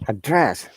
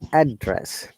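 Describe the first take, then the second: First: The pitch moves from low to high. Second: The pitch moves from high to low. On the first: The word is used as a verb. "the other way around. Now down to up" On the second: The word is used as a noun or adjective. "our voice comes from high to down, like address"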